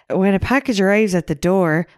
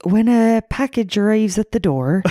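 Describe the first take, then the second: First: Upbeat and perky; bubbly. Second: Flat, bored English voice; deadpan like a dull man; monotone. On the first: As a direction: read it brightly and cheerfully. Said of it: "You're doing it way too bubbly". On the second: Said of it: "he's a lot more monotone". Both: Retold or imitated.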